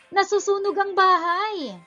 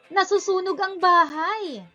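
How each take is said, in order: The two takes are said the same way.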